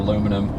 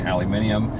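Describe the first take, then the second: First: The word is said in the speaker's usual form. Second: The word is said in the alternative form. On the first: The speaker calls it wrong. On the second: The speaker calls it right.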